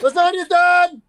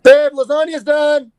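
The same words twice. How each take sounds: First: Higher, louder yelled call; mock shout. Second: High, loud, slow call across the house; mock call to partner. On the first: Repeated call that the lasagna is done, shouted higher. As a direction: bellow it across the house. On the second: Playful call to partner that dinner is done, loud and high. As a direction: sing out that dinner's ready like a sitcom spouse.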